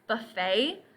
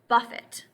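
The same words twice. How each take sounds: First: The word ends in an 'ay' sound. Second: The word does not end in an 'ay' sound. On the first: A place where you serve yourself food. "the more common pronunciation" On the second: To hit or to strike. "which means to hit or to strike"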